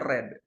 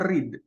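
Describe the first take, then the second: First: Read is pronounced as its past-tense form. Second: Read is pronounced as its present-tense form. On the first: The action happened in the past. "past tense-nya, jadi bentuk uh, lampaunya itu dibacanya read" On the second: The action happens in the present. "yang pertama itu dibacanya read"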